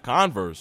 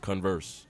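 First: The stress is on the first syllable. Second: The stress is on the second syllable. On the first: The speaker calls it wrong. "Not converse" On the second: The speaker calls it right. "It's converse"

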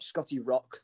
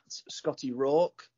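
First: The surname's vowel is short, as in rock. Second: The surname's vowel is long, as in hawk. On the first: The speaker calls it wrong. "not Scotty Rock, that a lot of announcers seem to mispronounce my name" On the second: The speaker calls it right. "Rawk like Hawk"

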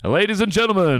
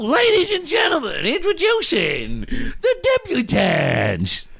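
First: It is said in a deep voice. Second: It is said in a put-on housewife voice.

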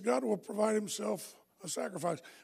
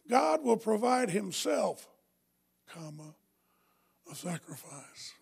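First: It is said without a pause after himself. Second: There is a pause after himself.

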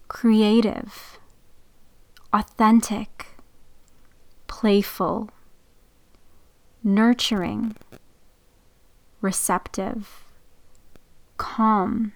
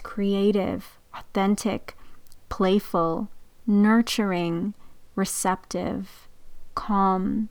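First: The words are read more slowly. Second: The words are read at a normal pace.

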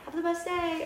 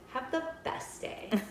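First: It sounds warm and genuinely friendly. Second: It sounds pointed and mockingly insincere. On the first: The speaker really wishes the person well. "whether I mean it" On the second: The speaker hopes the person gets what they deserve. "have the freaking day you deserve"

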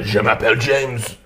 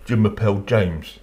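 First: It is said with a strong French accent. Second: It is said with a plain English accent. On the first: The speaker fully commits to the accent. "really going for" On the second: The speaker avoids seeming to mock the accent. "I'd say"

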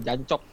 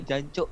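First: The word ends with a clearly released k sound. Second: The word ends with a held breath catch. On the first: The speaker calls it wrong. "bukan jancok" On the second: The speaker calls it right. "cukup ditahan nafasnya"

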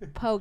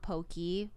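First: The word ends with an 'ay' sound. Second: The word ends with an 'ee' sound. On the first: The speaker calls it right. "The raw fish is poke" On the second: The speaker calls it wrong. "not pokey"

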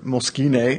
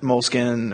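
First: The word is said in a fancy, refined way. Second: The word is said in a plain, everyday way.

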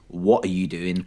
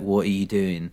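First: It is said in a clear, sober-sounding voice. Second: It is said in a slurred, drunk-sounding voice.

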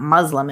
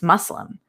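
First: The middle consonant sounds like a buzzing Z. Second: The middle consonant sounds like a soft hissing S. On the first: The speaker calls it wrong. "why do you guys always put a Z in there?" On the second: The speaker calls it right. "soft S"

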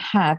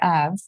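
First: The word begins with a clear h sound. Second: The word begins without any h sound. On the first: "instead of saying have" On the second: "I used to drop my H's. you say have"

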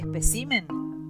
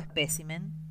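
First: The stress falls on the syllable ci. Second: The stress falls on the syllable pe. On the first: The speaker calls it wrong. "como acostumbramos a oír" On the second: The speaker calls it right. "La forma espécimen es la correcta. Se trata de una palabra esdrújula, pues el acento prosódico recae en la sílaba P"

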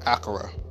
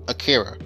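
First: The name is said in a non-English way. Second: The name is said in an English-style way. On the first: "Now I pronounce it" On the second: "like most people, most English pronouncers would"

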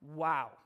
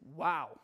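First: It is said sharply, in shocked disbelief. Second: It is said sharply, in shocked disbelief.

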